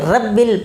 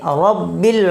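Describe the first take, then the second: First: The r sound is light and thin. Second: The r sound is heavy and thick. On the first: The speaker calls it wrong. "ये बिल्कुल अच्छा नहीं लगेगा" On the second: The speaker calls it right. "मोटा करके पढ़ा जाता है"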